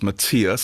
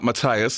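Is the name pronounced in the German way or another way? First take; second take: German; another way. First: The name is said in the German way. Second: The name is said in a non-German way. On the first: The speaker calls it right. "Matthias is the correct pronunciation" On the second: The speaker calls it wrong. "So it's not Matthias"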